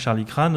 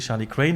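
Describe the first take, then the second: First: Crane sounds like French 'crâne', with a broad 'ah'. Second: Crane sounds like the English word for the bird. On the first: This is how some people say the name. "il y a des gens qui mettent un accent circonflexe dessus" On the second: This is the official name. "Il n'y a pas d'accent circonflexe. Donc c'est, euh, en fait, c'est Charlie Crane"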